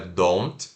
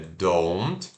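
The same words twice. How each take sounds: First: The vowel is not a clear 'oh' sound. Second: The vowel is a clear 'oh' sound. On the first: The speaker calls it wrong. "não é don't" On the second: The speaker calls it right. "tem que fazer esse O"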